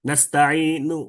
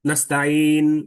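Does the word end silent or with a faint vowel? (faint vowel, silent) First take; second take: faint vowel; silent. First: The word ends with a faint, short vowel. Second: The word stops dead with no final vowel. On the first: "হালকা উচ্চারণ" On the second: "এটা সুকুন"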